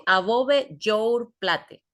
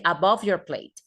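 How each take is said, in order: First: "above your plate" read slowly with Spanish sounds, "above" as a-BO-be; slow Spanish spelling reading of "above your plate"; read as written. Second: "above your plate" with English sounds, "above" as a-BUV and "plate" as PLEIT; teacher models "above your plate" in English; English pronunciation. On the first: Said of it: "Tampoco tengo que por, por, que pronunciarlo". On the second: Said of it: "Yo les voy a decir above your plate". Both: Shown as a demonstration.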